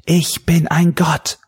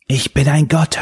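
First: Slow, much higher exultant shout; louder shout. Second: Higher triumphant shout. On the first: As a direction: roar it even louder. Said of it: "diesmal noch lauter". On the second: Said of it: "hörte er Daly wiederholen". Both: A narrator's reading.

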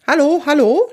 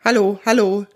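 First: High, loud testing hello; calling into microphone. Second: Restrained echo of a radio hello; voice from headphones. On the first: Kunibert tests the radio microphone, calling high and loud. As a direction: call brightly up into a radio mic. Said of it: "spricht Kunibert jetzt in das Mikrofon". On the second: Kunibert's hello sounds from helmet headphones, a restrained echo. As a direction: lightly imitate a hello coming through headphones. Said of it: "schallt es aus den Kopfhörern des Helms". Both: A narrator's reading.

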